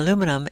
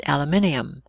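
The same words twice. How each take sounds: First: Said in the usual way. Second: British "aluminium", five syllables, stressed on MIN; British pronunciation. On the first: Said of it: "she pronounces". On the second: Retold or imitated. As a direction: say "aluminium" the English way, al-yoo-MIN-ee-um. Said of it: "my sister-in-law is from England".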